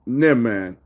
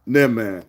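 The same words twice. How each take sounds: The two takes are said the same way.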